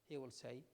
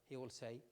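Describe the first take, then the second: Both takes have the same delivery.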